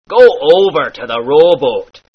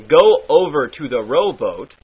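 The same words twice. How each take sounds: First: "Go" and "rowboat" with long drawn O, louder; stretched pirate O. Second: Said in the usual way. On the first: Shown as a demonstration. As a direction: stretch each O out. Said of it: "stretch it out". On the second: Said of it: "turns into".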